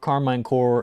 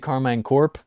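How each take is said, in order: First: The word ends without a p sound. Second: The word ends with an audible p sound. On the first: "I say Corps because it's like Peace Corps" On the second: "If you say Carmine Corp, fair play"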